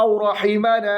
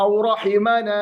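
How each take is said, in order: The two takes are said the same way.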